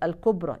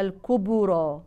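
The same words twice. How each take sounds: First: The bounced b has no added vowel color. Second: The bounced b leans toward a u vowel. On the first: "مثل كلمة الكبرى" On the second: "يقرأوها الكبرى، وهذا خطأ"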